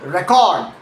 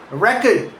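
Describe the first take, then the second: First: Re-CORD, the verb; slow record, leaning on CORD; record with a light start and drawn-out CORD; stress on second syllable. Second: RECord, the noun; record with a strong start and weak second vowel; stress on first syllable. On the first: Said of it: "second syllable for verbs". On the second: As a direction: punch REC and reduce the ending of record. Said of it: "first syllable for nouns". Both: Shown as a demonstration.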